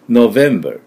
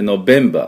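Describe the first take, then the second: First: The middle consonant is V, teeth on lip. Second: The middle consonant is B, with lips together. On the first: The speaker calls it right. "実際V なんでNovember 唇を当てなきゃいけません" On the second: The speaker calls it wrong. "B 唇合わせてNovember って言ってると思います"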